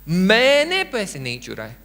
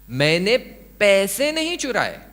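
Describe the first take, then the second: First: The word मैंने carries the stress. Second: The word पैसे carries the stress. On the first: Someone else stole the money. "यानी किसी और ने पैसे चुराए" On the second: Something other than money was stolen. "मैंने कुछ और चुराया"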